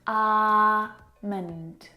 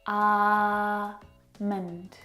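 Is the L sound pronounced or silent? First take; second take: silent; silent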